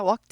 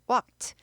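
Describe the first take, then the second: First: The ending is not a t sound. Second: The ending is a clear t sound. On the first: The speaker calls it wrong. "walked 아니고" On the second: The speaker calls it right. "트 발음 나요"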